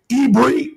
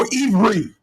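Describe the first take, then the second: First: The middle consonant is a B sound. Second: The middle consonant is a V sound. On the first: "there's two ways of saying it" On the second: "they change it from a B to a V"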